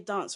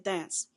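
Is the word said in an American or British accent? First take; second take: British; American. First: The word is said in a British accent. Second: The word is said in an American accent. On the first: "if you have a British accent, you will say dance" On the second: "Americans say dance"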